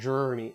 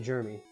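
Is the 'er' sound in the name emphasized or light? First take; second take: emphasized; light. First: The 'er' sound is leaned into heavily. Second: The 'er' sound is light, not leaned into. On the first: The speaker calls it wrong. "you don't lean into the er" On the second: The speaker calls it right. "Say Jeremy"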